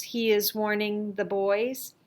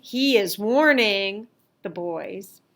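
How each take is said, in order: First: Said in the usual way. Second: "warning" pushed out louder; stress on warning. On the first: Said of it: "maybe you want to focus on the warning". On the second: Shown as a demonstration. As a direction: lean on the word "warning". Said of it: "focus on the warning".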